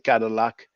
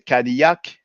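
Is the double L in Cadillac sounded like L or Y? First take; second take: L; Y. First: The double L sounds like an L. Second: The double L sounds like a Y. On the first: This is the English way of saying it. "but you say Cadillac" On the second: This is the French way of saying it. "we say Cadillac"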